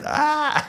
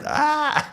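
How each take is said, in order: First: It sounds dismayed, as if something bad happened. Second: It sounds dismayed, as if something bad happened.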